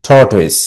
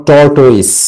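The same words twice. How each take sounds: First: "tortoise" as tort plus ois, falling; correct pronunciation demonstrated. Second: "tortoise" drawn out slowly, not joined as tort-ois; wrong pronunciation demonstrated. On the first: Teacher joining the syllables for students, "tortoise" as tort-ois. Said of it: "উচ্চারণ করবে কিভাবে". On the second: Teacher warning students off this version, "tortoise" slowly drawn out the wrong way. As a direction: stretch out "tortoise" as the mistaken version. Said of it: "Not tortoise". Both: Shown as a demonstration.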